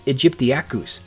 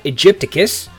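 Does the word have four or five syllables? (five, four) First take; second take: five; four. First: The word is said with five syllables. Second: The word is said with four syllables. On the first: The speaker calls it right. "It's aegyptiacus" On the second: The speaker calls it wrong. "It's not aegypticus, and it never has been"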